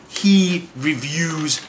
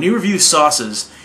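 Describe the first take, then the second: First: HE REVIEWS stretched out very slowly, word by word; "he... reviews", each word dragged out for weight; drawn-out emphasis. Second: Said in the usual way. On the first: Real, not acted. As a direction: lean hard and long on "he reviews". Emphatic repeat, he really reviews.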